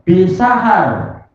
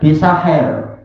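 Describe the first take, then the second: First: The last vowel is an open 'a'. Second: The last vowel is tilted toward 'e'.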